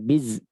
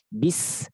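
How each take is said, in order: First: The syllable ends with a voiced z sound. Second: The syllable ends with a pure s sound. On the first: The speaker calls it wrong. "bukan biz" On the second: The speaker calls it right. "murnikan sin jangan sampai tercampur dengan huruf yang semakhraj dengan sin"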